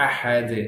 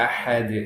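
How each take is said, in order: The two takes are said the same way.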